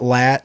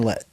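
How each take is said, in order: First: The vowel is open and front, as in 'lat'. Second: The vowel is mid-front, as in 'let'. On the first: The speaker calls it wrong. "It's not lat" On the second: The speaker calls it right. "somewhere between let and lat. So it's like Kristen Lett"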